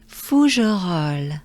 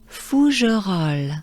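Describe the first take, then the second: The two takes are said the same way.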